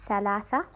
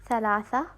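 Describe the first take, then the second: The two takes are said the same way.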